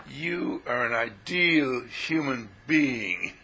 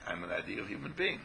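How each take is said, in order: First: Slow, grand, lofty declaration; solemn pronouncement. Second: Said in the usual way. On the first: Pretend. Teacher proclaiming to the listener, slow and lofty. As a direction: intone it like a sacred truth. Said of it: "What are you talking like that for?". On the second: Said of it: "But you just say".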